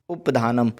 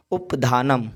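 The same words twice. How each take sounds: The two takes are said the same way.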